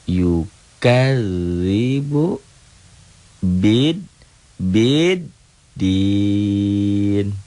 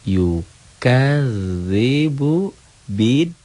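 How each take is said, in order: First: The phrase is broken up with breaks between syllables. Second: The phrase is joined smoothly without any breaks. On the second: "Sambung tanpa lagu"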